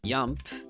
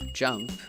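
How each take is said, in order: First: The word begins with a Y sound. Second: The word begins with a J sound. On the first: The speaker calls it wrong. "might say yump" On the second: The speaker calls it right. "instead of jump"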